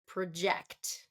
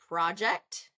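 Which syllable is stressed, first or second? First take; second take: second; first. First: The stress is on the second syllable. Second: The stress is on the first syllable. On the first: It is used as a verb. "verb is project" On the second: It is used as a noun.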